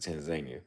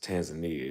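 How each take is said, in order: First: It uses the pronunciation used by Tanzanians. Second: It uses the pronunciation common among outsiders. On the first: The speaker calls it right. "If you talk to people from Tanzania, they pronounce it Tanzania" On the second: The speaker calls it wrong. "It's actually not pronounced Tanzania"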